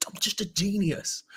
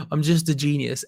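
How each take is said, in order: First: Mock smug. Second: Said in the usual way.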